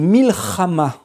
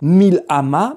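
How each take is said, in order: First: The middle consonant is a throaty ch sound. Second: The middle consonant is a plain h sound. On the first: The speaker calls it right. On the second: The speaker calls it wrong. "on ne dit pas"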